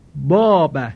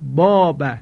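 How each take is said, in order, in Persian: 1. صدای کشیده «آ» پُر و سنگین است. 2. صدای کشیده «آ» پُر و سنگین است.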